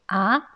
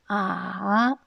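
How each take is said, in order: First: It is said with the rising second tone. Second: It is said with the dipping third tone. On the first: It expresses surprise. "il prononce le deuxième ton" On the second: It expresses doubt. "a se prononce le troisième ton"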